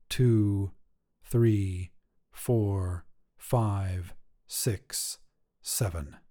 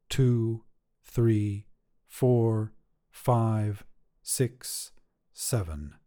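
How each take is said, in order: Both takes have the same delivery.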